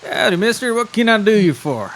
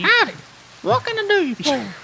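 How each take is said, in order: First: High, twangy howdy. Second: Very high, squeaky howdy; squeaky tiny critter voice. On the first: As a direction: greet like a tiny country wolf. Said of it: "branching out on your, uh, voices". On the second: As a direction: squeak it like a foot-tall wolf. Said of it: "he can still have a deep voice". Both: Acted.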